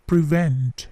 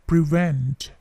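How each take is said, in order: Both takes have the same delivery.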